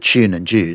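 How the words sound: It is said with a hurried Australian accent.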